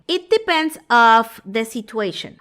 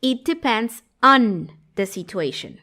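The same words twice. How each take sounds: First: "depends of" said slowly, loud, as the error; mock a learner's wrong "of"; common mistake. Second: Slow, "on" stressed; correct version. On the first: Teacher imitates the learner's wrong phrase. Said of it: "a veces dicen esto". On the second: Teacher models the correct phrase slowly. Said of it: "la expresión correcta". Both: Shown as a demonstration.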